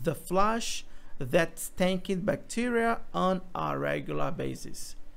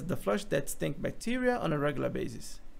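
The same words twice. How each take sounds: First: Each word is said fully and distinctly. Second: The words are reduced and run together quickly. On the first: "a frase na forma gramatical" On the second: "a frase na forma conversacional"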